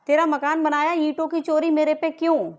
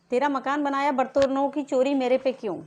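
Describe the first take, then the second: First: Real angry shout, higher and louder; raised-voice indignant challenge; angry demand. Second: Said in the usual way. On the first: Real, not acted. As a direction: yell the accusation, demanding an answer. Accusing question repeated as a shout.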